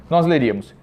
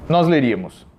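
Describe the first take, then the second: Both takes have the same delivery.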